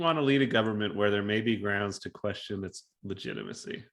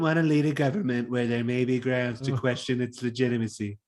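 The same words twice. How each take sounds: First: It is read in a plain, normal voice. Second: It is read in a put-on, different voice.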